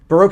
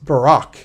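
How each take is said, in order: First: The second syllable sounds like 'roke'. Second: The second syllable sounds like 'rock'. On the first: "pronounced Baroque" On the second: "sometimes it's pronounced Barack"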